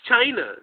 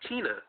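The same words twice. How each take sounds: First: The word China is pronounced the usual way. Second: The word China is pronounced in an odd way. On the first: This is how everyone else says it. "We all say like, it's China" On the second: This imitates how someone else said it. "He kept saying China in this weird way, like"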